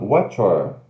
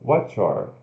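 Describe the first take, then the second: No difference in how they are said.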